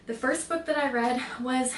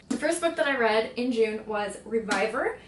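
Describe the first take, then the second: First: Breathless start; winded, gasping a little; out of breath. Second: Said in the usual way. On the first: Real, not acted. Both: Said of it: "I'm out of breath".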